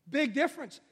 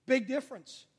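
The two takes are said the same way.

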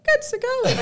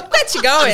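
First: High, cheesy chat-up voice; laughing high imitation of a flirt; Nick impression. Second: Said in the usual way. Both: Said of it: "you're doing a Nick now".

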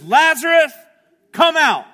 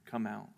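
First: High, booming shouted command; calling out loudly. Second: Low, soft command; quiet echoed call. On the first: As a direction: shout it out as if to wake the dead. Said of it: "he calls out in a loud voice". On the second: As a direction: say the summons softly, gently echoing the earlier shout. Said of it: "I can hear the same voice". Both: Retold or imitated.

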